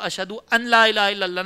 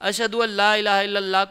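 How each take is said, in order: First: The n is sounded separately, giving an la. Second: The n merges into l, giving alla. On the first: The speaker calls it wrong. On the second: The speaker calls it right.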